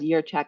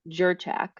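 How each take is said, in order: First: The name begins with a Y sound. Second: The name begins with a J sound. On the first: The speaker calls it right. "pronounced as Yurchak as it would be a Y" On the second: The speaker calls it wrong. "everybody says Jurchak"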